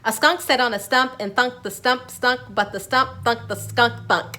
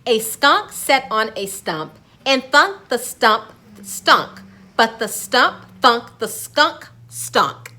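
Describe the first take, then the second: First: It is said at a faster speed. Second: It is said at a normal speed.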